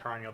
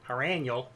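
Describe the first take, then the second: First: The name is said in a neutral accent. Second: The name is said in a Chicago accent.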